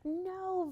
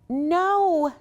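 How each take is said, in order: First: It is said quietly. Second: It is said a little louder.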